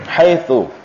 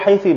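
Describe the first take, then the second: First: The word ends in the vowel u. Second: The word ends in the vowel i. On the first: This is the standard form. "mabniyatun 'ala dhammi" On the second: "membinakannya dengan kasrah"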